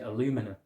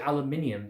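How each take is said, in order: First: The word is said with four syllables. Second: The word is said with five syllables. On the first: This is how people in the US say it. "They pronounce it aluminum" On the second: This is how the speaker's own country says it. "We say aluminium"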